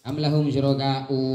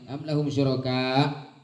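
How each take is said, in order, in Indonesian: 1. Kata terakhir berakhir dengan vokal 'u' tambahan. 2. Kata terakhir berakhir dengan hamzah hentian tertutup. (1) "tak boleh" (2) "Apabila dibaca waqaf maka dibaca dengan hamzah sukun tanpa mat"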